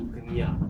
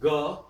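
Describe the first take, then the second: First: It is said as g followed by nya. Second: It is said as a plain ga. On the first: "kind of a balanced thing" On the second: "Bengalis will say ga"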